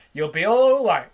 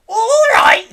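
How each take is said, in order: First: Said in the usual way. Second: High, loud outraged echo; indignant yell. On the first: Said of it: "George reassures grandma". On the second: A narrator's reading. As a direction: fling the words back at him. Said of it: "she yelled".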